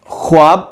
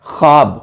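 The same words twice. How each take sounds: First: خواب with the و sounded, khwab; خواب mispronounced as khwab; wrong pronunciation. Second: خواب with a silent و, khab; correct pronunciation. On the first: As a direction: say خواب the wrong way, voicing the waw. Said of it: "ہم خواب پڑھیں گے تو یہ غلط ہوگا". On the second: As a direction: say خواب right, skipping the waw. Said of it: "اس کا درست تلفظ ہے". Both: Shown as a demonstration.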